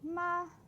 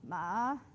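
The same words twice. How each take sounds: First: The pitch stays high and level throughout. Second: The pitch starts low, dips, then rises. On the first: It means mother. "a high level tone" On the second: It means horse. "a low dipping tone"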